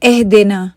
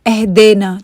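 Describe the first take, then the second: The two takes are said the same way.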